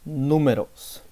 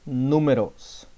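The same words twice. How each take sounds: Both takes have the same delivery.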